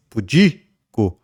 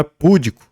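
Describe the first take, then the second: First: Pudico slowly stressed on the middle syllable, pu-DI-co; correct stress, slowly. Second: Púdico stressed on the first syllable, PÚ-di-co; púdico as the mistake, PÚ-di-co; wrong stress. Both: Shown as a demonstration. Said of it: "Não é púdico, mas pudico".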